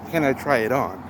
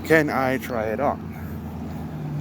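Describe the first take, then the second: First: Said in the usual way. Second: "Can I try it on?" slow and stretched with a rising end; drawn-out repeat. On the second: Shown as a demonstration. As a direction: repeat it slowly so it sinks in.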